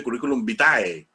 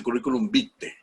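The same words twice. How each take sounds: First: "vitae" said bi-ta-e, with the ae as an a-e glide; "curriculum vitae" with "vitae" ending in ta-e; wrong pronunciation. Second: "vitae" said bi-te, the ae as a single e; "curriculum vitae" with "vitae" ending in a short te; correct Latin pronunciation. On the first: Teacher shows how people mispronounce "vitae" as bi-ta-e. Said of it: "no se dice curriculum vitae". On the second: Teacher gives the proper Latin "vitae", pronounced bi-te. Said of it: "se dice curriculum vitae". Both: Shown as a demonstration.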